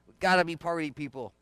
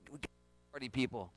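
First: Said in the usual way. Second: Dropped much softer, almost confiding; softly, intimately. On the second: Shown as a demonstration. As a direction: pull it right down before repeating it.

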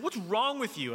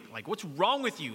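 First: Much higher, louder snap; reenacted angry father; retold angry yell. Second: Retold angry scolding. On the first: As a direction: demand it like an exasperated coach. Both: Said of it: "I'm angry".

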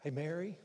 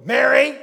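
First: Understated, casual calling of her name; easy, intimate greeting; gentle name call. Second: Mock booming call; wrong way, yelled. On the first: Acted. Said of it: "No, I, he didn't do that". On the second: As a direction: comically overblown shout of a name. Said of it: "I bet he didn't go".

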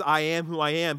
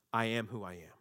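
First: Louder, ringing declaration; proclaimed. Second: Lower, softer, settled; calm final answer; solemn divine answer. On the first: Preacher proclaiming God's name, loud and bold. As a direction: announce it to the hall. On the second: God revealing his name to Moses, low and calm. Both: Acted.

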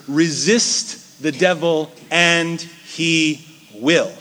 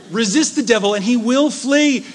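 First: Each word drawn out slowly; slow scripture quote. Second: Louder and higher, laughing through it; joyful proclamation. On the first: Preacher reading the verse to his flock, slow and weighty. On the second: Preacher repeating the verse to the congregation, loud and laughing. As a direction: cry it out with a laugh of triumph. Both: Acted.

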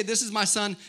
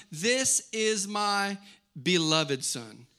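First: Said in the usual way. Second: Very slow build-up to "beloved", set apart by a pause; stress on beloved. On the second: Shown as a demonstration. Father naming his beloved son, "beloved" slowly and weightily stressed. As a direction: spell out each word slowly, landing on "beloved". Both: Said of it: "he didn't just say".

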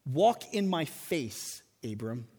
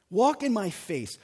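First: "Walk in my face, Abram" drawn out slow and hushed; slow hushed divine invitation; slow solemn reading. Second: Said in the usual way. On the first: Shown as a demonstration. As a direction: intone it slowly and gently as God's call. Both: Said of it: "Literally, this reads".

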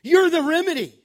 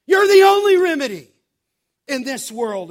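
First: Higher and louder, You're punched hard; emphatic preaching. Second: Much higher and much louder, faster, peaking on only; a ringing shout from the pulpit; full-force preaching. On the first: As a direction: declare it with full conviction. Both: Real, not acted. Preacher climax, repeated claim.

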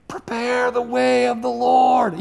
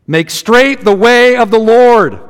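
First: A faint call from way off in the distance, slow; slow, far-off cry, much softer; faint distant voice. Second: Slow, drawn-out proclamation of the words; proclaiming cry. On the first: Shown as a demonstration. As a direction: sound like a voice from far out in the wilderness, barely heard. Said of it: "You can barely hear my voice". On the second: Acted. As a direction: call it out like a herald across the desert. Prophet's cry quoted from Isaiah.

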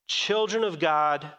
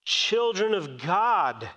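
First: Said in the usual way. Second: Slowed right down, each word weighed; slow emphatic. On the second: Shown as a demonstration. Preacher slowing to stress believers' identity. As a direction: lean on it slowly for the congregation.

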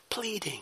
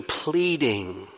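First: Very soft, higher-pitched PLEADING; hushed pleading. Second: Said in the usual way. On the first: Shown as a demonstration. Preacher showing what pleading sounds like, hushed. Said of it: "or even pleading".

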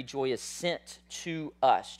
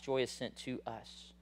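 First: Each word slow and weighted, "sent" leaned on; slow emphatic point. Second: Softer echo of "Joy is sent to us", trailing down; soft repeated point. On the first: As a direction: lay down "joy is sent to us" slowly, word by word. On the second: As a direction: let "Joy is sent to us" sink in quietly. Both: Shown as a demonstration. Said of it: "Number three".

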